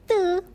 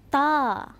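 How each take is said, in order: First: The letter name is said the English way. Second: The letter name is said the Arabic way. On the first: The speaker calls it wrong. "Nak jadi orang putih" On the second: The speaker calls it right. "Kita sebut ta"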